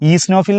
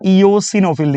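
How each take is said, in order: First: A middle syllable is dropped, shortening it. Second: All syllables are said in full. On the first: "നിങ്ങൾ ചിലപ്പോൾ ഈസ്നോഫിൽ എന്ന് പറഞ്ഞ് ശീലിച്ചിട്ടുണ്ടാവും" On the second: "രണ്ടാമത്തെ ആളാണ് ഇയോസിനോഫിൽ"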